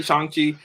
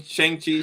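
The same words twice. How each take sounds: First: Shang-Chi with an "ah" vowel; accurate pronunciation. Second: Shang-Chi with an "ay" vowel; old pronunciation. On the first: Co-host correcting to the other version, Shang-Chi said as "shahng-chee". Offers both pronunciations in turn. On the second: Co-host giving both versions, Shang-Chi said as "shayng-chee". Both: Shown as a demonstration.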